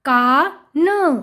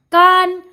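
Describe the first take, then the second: First: का drawn out, then a separate न; sounding out. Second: Said in the usual way. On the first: Shown as a demonstration. Teacher reading to children, sound by sound. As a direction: split it slowly: का... न. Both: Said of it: "उच्चारण करके पढ़ लिया".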